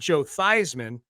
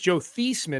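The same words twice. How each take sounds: First: The surname rhymes with Heisman. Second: The surname does not rhyme with Heisman. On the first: This is a changed pronunciation adopted for publicity. "change the pronunciation to Theismann because it rhymes with Heisman" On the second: This is the name's original pronunciation. "his name was"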